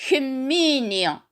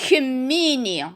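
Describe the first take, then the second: No difference in how they are said.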